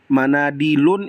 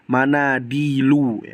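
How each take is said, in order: First: The word ends with an n sound. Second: The word ends with a plain vowel. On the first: The speaker calls it wrong. "itu keliru" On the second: The speaker calls it right. "yang benar adalah"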